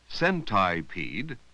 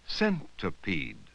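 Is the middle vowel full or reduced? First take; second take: full; reduced. First: The middle vowel is said as a full vowel. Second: The middle vowel is reduced to uh. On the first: The speaker calls it wrong. "instead of saying centipede" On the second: The speaker calls it right. "we say centipede"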